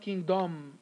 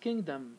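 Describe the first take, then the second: First: The last syllable has a full vowel. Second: The last syllable has a weak schwa vowel. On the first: The speaker calls it wrong. "it's not kingdom" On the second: The speaker calls it right. "the schwa here is uh, linking the D and the M"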